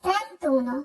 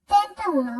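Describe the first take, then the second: First: "trentuno" with no a, tren-too-no; correct trentuno. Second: "trentauno" with a and u both sounded; wrong trenta-uno. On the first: Teacher correcting thirty-one, elided "trentuno". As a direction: drop the a in "trentuno". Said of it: "আমরা উচ্চারণ করব". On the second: Teacher showing the common error, unjoined "trentauno". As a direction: keep four syllables in "trentauno". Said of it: "অনেকে ভুল উচ্চারণ করি". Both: Shown as a demonstration.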